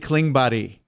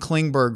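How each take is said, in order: First: The name is said with a Swedish pronunciation. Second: The name is said with an English pronunciation. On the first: The speaker calls it right. "it's really Klingberg" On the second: The speaker calls it wrong. "Dallas Stars fans have been saying John Klingberg"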